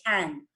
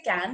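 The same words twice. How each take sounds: First: Can with a strong puff of air on the k; aspirated k. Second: Can with a hard k and no puff of air; unaspirated k. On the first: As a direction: say can as 'खैन', starting on 'kh'. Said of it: "say can". (can को हवा छोड़ते हुए 'खैन') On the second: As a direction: say can with a plain Indian 'क'. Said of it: "don't say can". (can को बिना हवा के 'कैन') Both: Shown as a demonstration.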